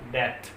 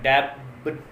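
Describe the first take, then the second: First: No b sound is heard before the t. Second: A b sound is heard before the t. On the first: The speaker calls it right. "बी silent रहेगा" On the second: The speaker calls it wrong. "डैप नहीं होगा, ब sound नहीं आएगा"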